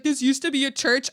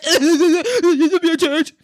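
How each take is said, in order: First: Said in the usual way. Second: Loud, slow, higher silly whine; mocking whiner. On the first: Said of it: "I'm like". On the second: Mimicking the guest about the church, mocking whine. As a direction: parrot it mockingly, stretched out and loud.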